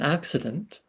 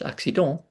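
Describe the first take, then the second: First: The word is pronounced the English way. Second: The word is pronounced the French way. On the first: "rather than" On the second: "so it's in French"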